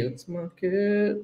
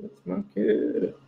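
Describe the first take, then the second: First: Quiet. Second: Softer muttered take. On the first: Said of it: "repeats it differently". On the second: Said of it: "repeated take". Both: Real, not acted.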